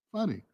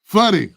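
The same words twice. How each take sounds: First: Funny said soft, almost under breath; quiet. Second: Funny said loud and firm; emphatic. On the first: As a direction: murmur Funny as an afterthought. Quiet echo of the same word. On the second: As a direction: bark the word Funny with force. Insisting on getting back to funny. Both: Real, not acted.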